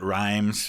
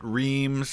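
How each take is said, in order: First: It has an eye vowel and ends in z. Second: It has an ee vowel and ends in z. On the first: This is how the narrator said it. "I know he pronounced it rhymes" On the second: This is how wartime soldiers said it. "a lot of soldiers pronounced it reams"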